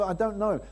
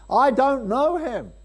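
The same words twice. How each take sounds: First: Said in the usual way. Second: High, loud and slow, every word hammered; loud denial. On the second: Retold or imitated. Preacher voices Peter's third denial to the crowd, loud. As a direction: throw the third denial out like a shout.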